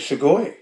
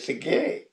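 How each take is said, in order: First: The word ends with an 'oi' sound. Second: The word ends with a long 'ee' sound. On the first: This is the form older people use. "The elders say Sugoi" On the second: This is the form young people use. "the youngsters say Sigir"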